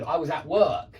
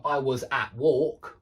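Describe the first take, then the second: First: "work" with a clear er vowel; correct vowel demo. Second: "walk" with a long aw where work is meant; slow sample sentence, drawing out "walk" with an aw vowel; mistaken vowel demo. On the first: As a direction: stress "work" with its long er sound. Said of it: "yeah, not at walk". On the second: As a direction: end on a long, rising "walk". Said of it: "that's not gonna get understood". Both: Shown as a demonstration.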